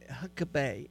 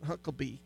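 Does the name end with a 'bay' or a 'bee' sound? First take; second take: bay; bee. First: The name ends with a 'bay' sound. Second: The name ends with a 'bee' sound. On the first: The speaker calls it right. "he's B-A-Y" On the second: The speaker calls it wrong. "it's not Huckabee"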